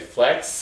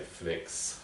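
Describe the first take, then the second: First: The vowel sounds like the one in 'bad'. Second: The vowel sounds like the one in 'bed'. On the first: The speaker calls it right. "I should say flax" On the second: The speaker calls it wrong. "I shouldn't say flex"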